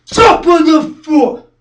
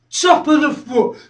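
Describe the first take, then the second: First: Slow, high, very loud shout; drawn-out yell, hammering the target; shouted repeat. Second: Raised, firm voice; higher-pitched, punchy list item; emphatic listing. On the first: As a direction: drive every word home at full force. Repeated harder. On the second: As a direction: land it high as the last target. First take of last target. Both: Acted.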